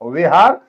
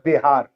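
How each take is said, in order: First: The first sound is made with open lips. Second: The first sound is made with closed lips. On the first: This is the original form meaning a monks' dwelling. "विहार होठ को खोल के बोला जाता है" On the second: This is the later, changed form of the word. "होठ बंद करके बोला जाता बिहार"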